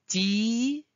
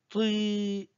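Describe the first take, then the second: First: The t sounds light and thin. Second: The t sounds heavy and deep. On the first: The speaker calls it wrong. "ce n'est pas euh, ti" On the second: The speaker calls it right. "c'est plutôt tri. C'est un peu grave"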